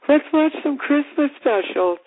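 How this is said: It is said in a put-on girl voice.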